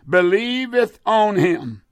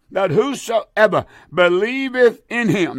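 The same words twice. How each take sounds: First: Believeth on him with on leaned on; the misreading on him, word on stressed. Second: The corrected reading, in him stressed. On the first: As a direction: lean on the word on, as the wrong reading. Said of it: "not on him, but in him". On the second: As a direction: hit the word in, as the right reading. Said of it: "but in him". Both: Shown as a demonstration.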